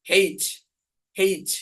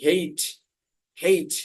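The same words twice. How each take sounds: No difference in how they are said.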